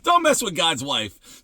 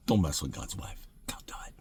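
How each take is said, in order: First: Said in the usual way. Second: Hushed whispered warning, much softer; soft whispered don't mess with God's wife. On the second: Real, not acted. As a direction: lean in and whisper it like a secret.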